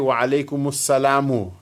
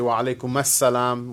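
First: The last word ends with an 'u' vowel. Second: The last word ends with an 'a' vowel. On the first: The speaker calls it right. "you should say wa alaykum assalamu" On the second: The speaker calls it wrong. "with a fatha on the meem, which is incorrect"

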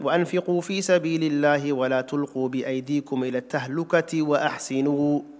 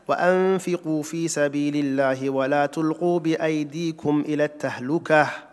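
First: The pause comes right after wa-ahsinu. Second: The pause comes right after at-tahluka.

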